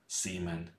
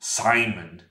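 First: The name has a non-English pronunciation. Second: The name has its normal English pronunciation. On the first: "I will often say Seaman, just for a lack of good alternatives" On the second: "that would be like the normal English pronunciation"

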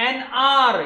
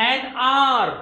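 The two takes are said the same way.

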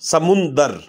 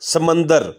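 First: The second vowel is 'u'. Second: The second vowel is 'a'. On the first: The speaker calls it right. "इसका दुरुस्त लफ्ज़ है समुंदर" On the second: The speaker calls it wrong. "ये दुरुस्त लफ्ज़ नहीं है"

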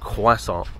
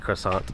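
First: It is said without an American accent. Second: It is said with an American accent. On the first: This is how the speaker says it. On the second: Someone else said it this way.

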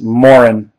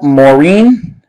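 First: The name is said in an American way. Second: The name is said in a non-American way. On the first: The player is American. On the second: The player is not American.

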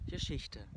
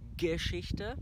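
First: The first G is soft or barely heard. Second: The first G is pronounced strongly. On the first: The speaker calls it right. "Ihr sprecht einfach das G gar nicht so stark aus" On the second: The speaker calls it wrong. "Dann sagt ihr nicht Geschichte"

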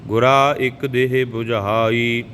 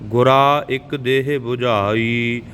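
The two takes are said the same way.

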